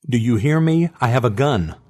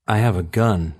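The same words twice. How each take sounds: First: Firm, defiant warning; defiant bluff. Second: A lightly voiced bluff, steady and even; bluffing lie. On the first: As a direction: bluff it out boldly. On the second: Woman bluffing to the hidden voice, lightly voiced steady bluff. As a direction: fake calm as if armed. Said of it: "she lied". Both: A narrator's reading.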